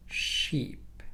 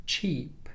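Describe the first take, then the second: First: "sheep" with a long sh onset; SH sound demo. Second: "cheap" with a short ch burst first; CH sound demo. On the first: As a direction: hold the sh before "sheep" opens up. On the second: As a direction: crisply pop the ch in "cheap". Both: Shown as a demonstration. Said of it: "let's compare these, these two sounds".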